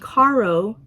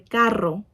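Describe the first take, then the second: First: The R is plain, not rolled. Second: The R is strongly rolled. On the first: The speaker calls it wrong. "instead of saying" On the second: The speaker calls it right. "you would say carro. You need to roll the R"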